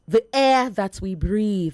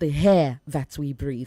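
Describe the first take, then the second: First: The word begins with a vowel, no h sound. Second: The word begins with an added h sound. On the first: The speaker calls it right. "Say air" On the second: The speaker calls it wrong. "not the hair that we breathe"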